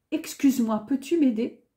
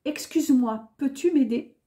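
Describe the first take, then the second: No difference in how they are said.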